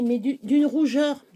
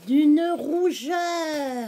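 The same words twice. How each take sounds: First: Said in the usual way. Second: Very slow, higher D'une rougeur stretched out; drawn-out emphasis. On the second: Shown as a demonstration. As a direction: lean hard on D'une rougeur. (D'une rougeur étiré lentement, plus aigu)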